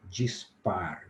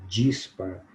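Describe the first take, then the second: First: The stress is on the last syllable. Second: The stress is on the first syllable. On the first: The speaker calls it wrong. "eu cometi quatro erros" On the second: The speaker calls it right. "é uma palavra paroxítona"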